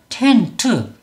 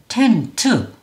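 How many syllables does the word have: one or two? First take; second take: two; two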